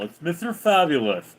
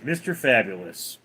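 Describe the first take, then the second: First: "Fabulous" lisped, final s as th; put-on lisp. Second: Said in the usual way. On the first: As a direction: play Mister Fabulous with a lisp on "Fabulous". Answers as lisping Mister Fabulous.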